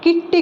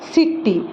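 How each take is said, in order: First: The word begins with a K sound. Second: The word begins with an S sound. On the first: The speaker calls it wrong. "ଆମେ ଏଟାକୁ କିଟି କହିବାନି" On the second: The speaker calls it right. "ଆମେ କ'ଣ କହିବା ... ସିଟି, ସ ଉଚ୍ଚାରଣ ହେଉଛି"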